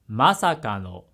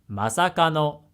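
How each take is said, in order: First: The pitch starts high, then stays low. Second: The pitch starts low, then stays high. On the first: "high low low low" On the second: "low high high high"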